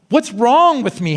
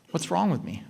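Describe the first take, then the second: First: Exasperated, pitched-up self-talk; mock panicky self-questioning; anxious inner voice. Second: Soft, intimate self-question; a softly spoken inner critic; hushed inner voice. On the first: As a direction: ask it in fretful frustration. Voicing anxious inner thoughts. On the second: Shown as a demonstration. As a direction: ask it quietly to yourself. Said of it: "Five words".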